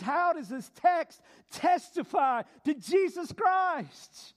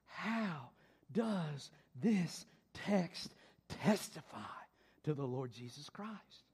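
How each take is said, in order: First: Slow, loud, higher preached question; proclaimed question. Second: Low, soft, slow question; hushed question. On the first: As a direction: proclaim it to the hall. Restates the key question loudly. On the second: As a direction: draw them in quietly. Posing the key question. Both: Real, not acted.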